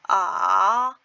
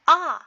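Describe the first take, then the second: First: It is said with Mandarin third tone. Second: It is said with Mandarin fourth tone.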